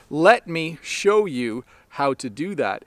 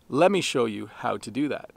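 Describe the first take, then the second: First: "Let me" is said as two full words. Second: "Let me" is compressed into "lemme". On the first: "We take sentences like" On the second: "we compress it into"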